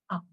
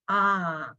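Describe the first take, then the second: First: The vowel is very brief and clipped. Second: The vowel is held long. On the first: "very, very short" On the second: "long sound"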